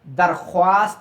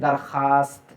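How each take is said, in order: First: The w sound is clearly pronounced. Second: The w sound is only faintly hinted. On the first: The speaker calls it wrong. "दरख्वास्त नहीं कहते" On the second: The speaker calls it right. "यानी वाव की बू आती है"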